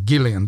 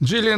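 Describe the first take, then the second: First: The name begins with a hard G sound. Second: The name begins with a soft J sound. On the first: The speaker calls it right. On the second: The speaker calls it wrong.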